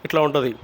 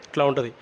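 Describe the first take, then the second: No difference in how they are said.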